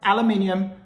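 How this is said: It is said the British way, five syllables. The speaker calls it right. "that's how you pronounce it"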